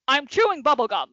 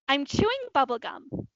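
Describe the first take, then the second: First: It is said in an angry tone. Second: It is said in a happy tone.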